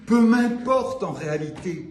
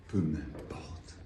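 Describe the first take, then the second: First: Poem line restated in full voice; firm, projected recital; full-voiced declamation. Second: Slow, low, near-whispered dismissal; breath-soft poetic aside; hushed aside. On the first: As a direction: lift "Peu m'importe" back up and project it. Same words restarted in declaimed voice. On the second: Acted. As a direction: let "Peu m'importe" fall away very softly. Poem line murmured, then repeated fully.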